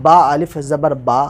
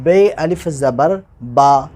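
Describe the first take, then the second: First: बा अलिफ ज़बर बा read slowly, बा as "baa"; direct reading. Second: बे अलिफ ज़बर बा spelled very slowly, बे as "bay"; slow spelling. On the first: Teacher reading बा अलिफ ज़बर बा slowly and directly. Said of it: "direct यही पढ़ लें". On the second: Teacher spelling बे अलिफ ज़बर बा slowly for pupils. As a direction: stretch out बे अलिफ ज़बर बा sound by sound. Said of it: "हिज्जा लगा रहे हैं". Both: Shown as a demonstration.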